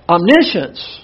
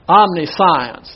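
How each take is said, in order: First: The word is said as om-nish-ence. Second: The word is said as omni plus science. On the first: The speaker calls it right. "It's pronounced omniscience" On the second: The speaker calls it wrong. "this looks like you would pronounce it omniscience"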